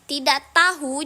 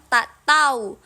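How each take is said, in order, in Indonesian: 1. Kata pertama punya dua suku kata. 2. Kata pertama punya satu suku kata.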